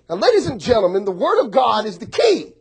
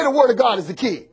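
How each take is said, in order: First: Building sermon emphasis on Word; preaching. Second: Word stressed, falling end; call and response. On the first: Acted. Pastor preaching to congregation, emphatic. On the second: Shown as a demonstration. Pastor prompting congregation to repeat, emphatic. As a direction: lead the church to repeat it.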